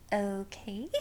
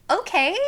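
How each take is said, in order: First: Soft, unsure okay with a rising end; a small, hesitant "Okay?"; awkward quiet okay. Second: Loud, high okay that falls at the end; a flat, resigned "Okay."; stunned okay. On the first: Awkward reply to the waitress. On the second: Accepting the news, stunned. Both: Retold or imitated.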